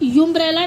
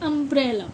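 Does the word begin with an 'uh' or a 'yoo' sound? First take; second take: yoo; uh. First: The word begins with a 'yoo' sound. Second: The word begins with a short 'uh' sound. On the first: The speaker calls it wrong. "इसे यूम्ब्रेला नहीं बोलते" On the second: The speaker calls it right. "इसे हम बोलते हैं अम्ब्रेला"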